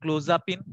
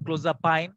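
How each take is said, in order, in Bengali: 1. শেষ অংশটি 'peen' এর মতো করে বলা হয়। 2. শেষ অংশটি 'pine' এর মতো করে বলা হয়। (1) "বিভিন্ন ভাবে উচ্চারণ আসলে প্রচলিত আছে" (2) "ইউএস অ্যাকসেন্টে যদি করতে চাই ক্লোজাপাইন বলবো"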